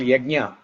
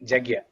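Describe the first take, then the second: First: The word starts with a y sound. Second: The word starts with a j sound. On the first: "Instead of ya" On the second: "they say ja"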